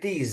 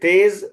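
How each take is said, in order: First: The vowel sounds like 'ee', as in teez. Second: The vowel sounds like 'ay', as in tez. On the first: This is the Persian pronunciation. "फारसी लफ्ज है और उसे वो लोग बोलते हैं तीज" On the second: This is the Urdu pronunciation. "जैसे हम लोग बोलते हैं तेज"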